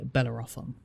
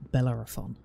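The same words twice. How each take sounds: First: "Bellerophon" with a full open "off" in it; heard mispronunciation. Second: "Bellerophon" with an unstressed schwa in the third syllable; supposed pronunciation. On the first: Streamer quoting how some people say it, spelling-style demo. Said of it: "some people I've heard say". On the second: Streamer showing viewers the name's supposed pronunciation, careful demo. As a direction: say "Bellerophon" as bel-LER-uh-fun. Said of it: "supposed to be pronounced". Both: Shown as a demonstration.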